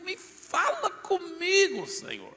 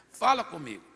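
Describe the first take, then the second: First: High, slow, drawn-out plea to God; desperate prayer, stretched high; pleading cry. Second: Said in the usual way. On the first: Retold or imitated. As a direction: cry it out slowly, high and longing.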